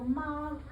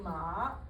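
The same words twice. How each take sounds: First: The pitch stays high and level. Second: The pitch dips low. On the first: It means mother. "that's mama" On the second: It means horse. "if I go down enough"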